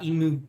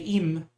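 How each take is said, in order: First: The name ends with an added oo vowel. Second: The name ends on a plain m sound. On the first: It is the Japanese pronunciation. The speaker calls it wrong. "not imu" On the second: It follows the spelling. The speaker calls it right. "I say im"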